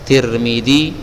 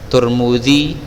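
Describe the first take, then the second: First: The first two syllables have the vowel i. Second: The first two syllables have the vowel u. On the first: "Kalau ti, tirmi, Tirmidzi" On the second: "Kalau dia doma, doma juga"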